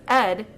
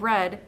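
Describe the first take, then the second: First: The starting R sound is left out. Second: The starting R sound is said. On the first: The speaker calls it wrong. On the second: The speaker calls it right.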